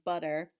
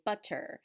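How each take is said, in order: First: The middle t is soft and relaxed. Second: The middle t is crisply enunciated. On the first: This is the usual American way of saying it. The speaker calls it right. "instead of saying butter" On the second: This is the British way of saying it. The speaker calls it wrong. "very very enunciated pronunciation"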